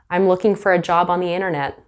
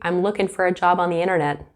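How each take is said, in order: First: The final g of looking is pronounced. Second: The final g of looking is dropped. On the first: It sounds more professional. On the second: It sounds casual, as with friends or family.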